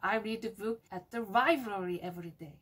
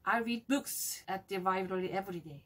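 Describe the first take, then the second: First: The word library carries the strongest stress. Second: The word books carries the strongest stress. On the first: The reading happens at the library, nowhere else. "library를 강조하면 돼요" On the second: It is books that the speaker reads. "books를 강조해서 말하면 돼요"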